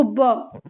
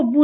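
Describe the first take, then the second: First: ब with an open "uh" vowel, no "oo"; ब as the phonic sound "buh". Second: बू with a long "oo" vowel; बू as "boo", lips rounded; wrong reading with oo. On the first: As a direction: say ब as a bare "buh". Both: Shown as a demonstration. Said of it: "बू नहीं पढ़ेंगे".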